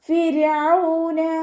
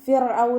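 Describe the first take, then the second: First: The r sound is light and lowered. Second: The r sound is heavy and raised. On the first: The speaker calls it right. "റോനെ നമ്മൾ താഴ്ത്തിയാണ് ഇവിടെ ഉച്ചരിക്കേണ്ടത്" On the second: The speaker calls it wrong. "ഫിർഔന എന്ന് പറയരുത്"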